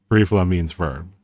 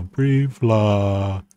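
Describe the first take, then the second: First: Said in the usual way. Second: Brief law said very slowly, each word drawn out and separated; slow, careful "brief law"; slowly spelled-out name. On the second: Shown as a demonstration. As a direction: lay out "brief law" slowly, like teaching the term. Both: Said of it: "Uh, brief law".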